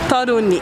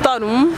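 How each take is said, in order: First: The name ends in a soft ni sound. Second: The name ends in a plain hard n. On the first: The speaker calls it right. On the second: The speaker calls it wrong.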